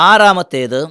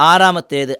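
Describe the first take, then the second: The two takes are said the same way.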